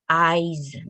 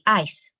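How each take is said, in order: First: It is said in a general English accent. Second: It is said in a Malaysian English accent.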